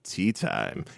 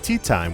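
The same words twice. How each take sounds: First: It is said with ironic, quote-mark emphasis. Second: It is said plainly, without special emphasis.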